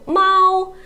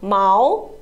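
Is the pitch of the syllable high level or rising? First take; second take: high level; rising. First: The pitch stays high and level throughout. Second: The pitch rises from middle to high. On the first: It means cat. "It is the first tone" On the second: It means hair or fur. "毛 is the second tone"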